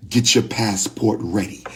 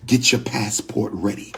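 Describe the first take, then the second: No difference in how they are said.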